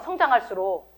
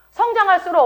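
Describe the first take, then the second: First: Said in the usual way. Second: 성장할수록 said much higher, last syllable stretched; stressed repeat. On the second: Shown as a demonstration. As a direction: lift and stretch 성장할수록 for emphasis. (성장할수록을 높고 길게 강조)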